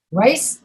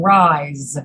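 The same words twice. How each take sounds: First: Rice rising, ending in a hissed S; careful Rice, S not Z; voiceless S. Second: Long rise, Z not S; voiced Z. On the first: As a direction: say Rice slowly with an unvoiced final S. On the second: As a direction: rise drawn out and falling into a buzzing Z. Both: Shown as a demonstration. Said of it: "these words that have the Z sound".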